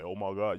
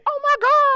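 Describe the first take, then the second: First: It is said in a deep, low voice. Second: It is said in a normal-pitched voice.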